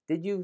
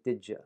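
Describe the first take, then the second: First: The second word is a full, clear 'you'. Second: The second word is reduced to a quick 'ya'.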